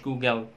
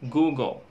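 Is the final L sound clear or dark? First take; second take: clear; dark. First: The final L is clear and light. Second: The final L is dark and velarized. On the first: The speaker calls it wrong. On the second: The speaker calls it right.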